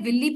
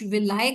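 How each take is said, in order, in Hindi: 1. यह शब्द 'ee' ध्वनि से खत्म होता है। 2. यह शब्द 'eye' ध्वनि से खत्म होता है। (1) "कुछ लोग इसे विल्ली प्रोनाउंस करते हैं" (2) "कुछ विलाय करते हैं"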